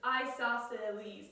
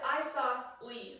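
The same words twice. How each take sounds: First: The word is said with more than three syllables. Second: The word is said with three syllables. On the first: "I often say isosceles" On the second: "the book says isosceles, like three syllables"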